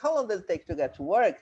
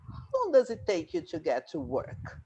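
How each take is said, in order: First: The voice rises at the end. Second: The voice falls at the end.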